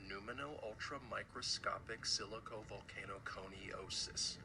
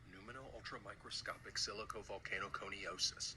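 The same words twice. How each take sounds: First: It is said slowly. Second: It is said at normal speed.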